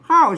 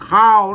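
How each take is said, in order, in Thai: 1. "ข้าว" ออกเสียงวรรณยุกต์โท 2. "ข้าว" ออกเสียงวรรณยุกต์เอก (1) "ข้าวเสียงโท" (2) "แต่ลือกับแต่ยองเปิ้นออกเป็นเสียงเอกนะครับเป็นข้าว"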